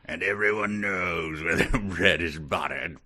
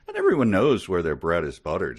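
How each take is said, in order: First: It is said in a knowing, menacing tone. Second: It is said in a casual, friendly tone. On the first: The remark is a veiled threat. "No, he probably said it" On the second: The remark is harmless small talk. "I'll try to say it in a nonchalant manner. See if I can say it so that I sound friendly"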